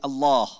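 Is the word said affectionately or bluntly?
bluntly. It is said flatly and bluntly. The caller addresses carelessly, without devotion. The speaker calls it wrong. "আর যদি বলি"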